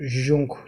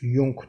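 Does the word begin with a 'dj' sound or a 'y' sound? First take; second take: dj; y. First: The word begins with a 'dj' sound. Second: The word begins with a 'y' sound. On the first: The speaker calls it wrong. "bunu Jung demiyoruz" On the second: The speaker calls it right. "Jung diye okunuyor"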